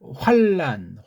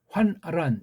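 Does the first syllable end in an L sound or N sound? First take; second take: L sound; N sound. First: The first syllable ends with an L sound. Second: The first syllable ends with an N sound. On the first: The speaker calls it wrong. "니은자가 아니고 리을자로 하는 그런 발음" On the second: The speaker calls it right. "정확하게 받침도 끝까지 하면서"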